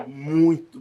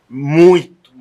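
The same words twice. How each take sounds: First: Said in the usual way. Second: "muito" burst out much louder; emphatic muito. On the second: Real, not acted. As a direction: throw all your weight onto "muito".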